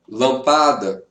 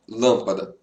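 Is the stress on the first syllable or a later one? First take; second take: later; first. First: The stress is on a later syllable. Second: The stress is on the first syllable. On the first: "C'est vraiment différent" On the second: "La plus forte, c'est la, lâmpada"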